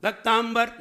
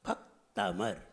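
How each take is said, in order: First: "भक्तांबर" high, with stressed "ताम" before b; wrong pronunciation. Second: Low, soft "भक्तामर", paused after "भक्"; correct pronunciation. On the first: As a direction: force the nasal middle of "भक्तांबर". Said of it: "भक्तांबर नहीं". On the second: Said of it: "बोलने का ढंग". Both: Shown as a demonstration.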